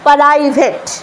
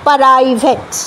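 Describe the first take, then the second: First: A short vowel is inserted between p and r. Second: The same.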